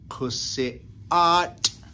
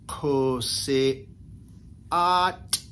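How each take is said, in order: First: The phrase is said quickly as one unit. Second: The phrase is said slowly, syllable by syllable. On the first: "we'll speed it up a little bit" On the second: "put it together a little slowly"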